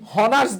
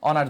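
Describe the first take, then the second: First: The word starts with an audible h sound. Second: The word starts with a vowel, no h sound. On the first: The speaker calls it wrong. "আমরা কি এভাবে বলি" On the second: The speaker calls it right. "অনার্স বলি"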